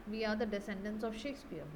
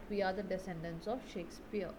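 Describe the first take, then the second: No difference in how they are said.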